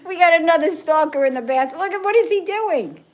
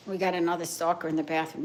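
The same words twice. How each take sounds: First: High, louder amused outburst; laughing delight at the cat; excited, laughing. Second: Said in the usual way. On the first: Real, not acted. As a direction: squeal it at the cat's antics. Cat stalking in the bathroom.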